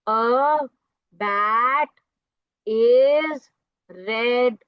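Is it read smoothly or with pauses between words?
with pauses. It is read haltingly with pauses between words.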